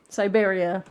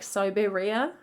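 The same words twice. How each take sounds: First: The word is said with its ordinary stress. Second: The word is said with unusual, shifted stress. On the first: It is the everyday pronunciation. "I accidentally said it normally" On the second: It is bent to fit a song's rhythm. "she says Siberia really weirdly in the song to kind of make it fit the rhythm"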